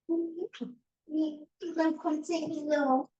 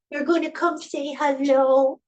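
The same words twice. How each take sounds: First: Much higher, slow, softer coaxing. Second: Much higher and louder sing-song coaxing. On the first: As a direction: croon it gently to the cat. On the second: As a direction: call the cat cheerfully. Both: Real, not acted. Coaxing the cat.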